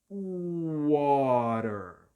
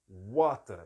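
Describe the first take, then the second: First: The t sounds like a quick r, final r pronounced. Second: The t is a clear t, final r dropped. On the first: "O americano ele vai pronunciar este A com som de O, este E tem som de A, ... esse T tem som de R" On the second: "o britânico não vai trocar o som de T por R, vai ser um T mesmo, e no final ele não pronuncia o R"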